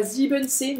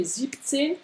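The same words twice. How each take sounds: First: Full sieben inside siebenzehn; wrong siebenzehn. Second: Siebzehn, short sieb plus zehn; siebzehn, clipped first part; correct siebzehn. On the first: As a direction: siebenzehn with all syllables. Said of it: "mais siebzehn". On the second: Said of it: "C'est pas siebenzehn". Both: Shown as a demonstration.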